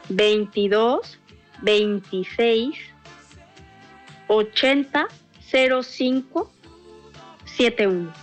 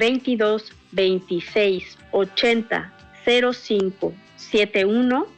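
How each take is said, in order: First: The number is said more slowly. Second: The number is said at normal speed.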